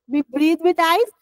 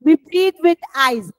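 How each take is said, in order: First: "We breathe with eyes" with a rising end; questioning repeat. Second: Said in the usual way. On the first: Shown as a demonstration. Teacher testing a wrong option on pupils, questioning rise on "eyes".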